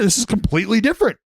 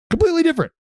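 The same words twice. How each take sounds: First: Said in the usual way. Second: Pitched way up in disbelief; high emphatic repeat. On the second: Real, not acted. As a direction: shoot the voice up on completely.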